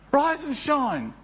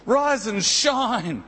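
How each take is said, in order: First: Higher rise and shine. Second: Slow rise and shine. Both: Shown as a demonstration. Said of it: "Jesus says to you and me".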